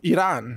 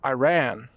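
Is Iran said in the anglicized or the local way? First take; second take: local; anglicized. First: Iran is said the way locals say it. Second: Iran is said the usual English way.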